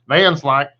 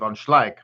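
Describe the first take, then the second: First: The name is said with an American Texan pronunciation. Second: The name is said with a Dutch pronunciation. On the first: The speaker calls it wrong. "we said Vanslyke because we're Texas" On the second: The speaker calls it right. "being from Holland corrected me and said no, it's von Schleich"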